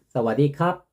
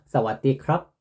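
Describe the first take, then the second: First: It is said loosely, with sounds blurred together. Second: It is said carefully, with each letter sounded. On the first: The speaker calls it wrong. "제가 좀 잘못 알고 있었구나" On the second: The speaker calls it right. "발음이 이렇게 하는 게 정확한 거구나"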